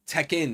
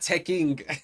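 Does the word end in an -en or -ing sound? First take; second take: -en; -ing. First: The word ends with an -en sound. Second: The word ends with an -ing sound. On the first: The speaker calls it right. "Tekken, not Tekking" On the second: The speaker calls it wrong. "not Tekking"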